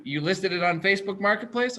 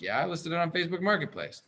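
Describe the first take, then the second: First: "Facebook Marketplace" held up as a question; checking question, pitch held up through "Marketplace"; retold question. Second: "Facebook Marketplace" falling away softer; matter-of-fact answer, "Marketplace" falling and softer; retold confirmation. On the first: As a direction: ask it, keeping "Marketplace" up. Retold question, then his answer. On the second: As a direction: confirm it, letting "Marketplace" drop.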